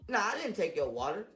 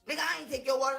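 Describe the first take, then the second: First: It is said casually, without conviction. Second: It is said forcefully, with strong conviction.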